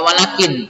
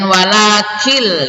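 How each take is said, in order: First: The final n is pronounced clearly as n. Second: The final n merges into an l sound. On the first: The speaker calls it wrong. "tidak dibaca walakin" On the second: The speaker calls it right. "nun matinya dimasukkan kepada huruf lam ya, tanpa dengung"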